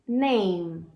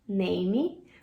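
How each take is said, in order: First: The word ends cleanly on the M sound. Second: A vowel sound is added after the final M. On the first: The speaker calls it right. "É assim que pronuncia nome em inglês" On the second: The speaker calls it wrong. "como se esse E no final fosse pronunciado"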